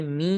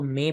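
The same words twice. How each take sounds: First: می said as "mee"; thin correct vowel. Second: میں said as "may"; mistaken majhool vowel. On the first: Teacher shows what should be read, maroof "mee" in می. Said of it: "باریک پڑھنا چاہیے". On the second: Teacher shows what people read, majhool "may" in میں. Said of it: "تو اس کو میں پڑھتے ہیں". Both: Shown as a demonstration.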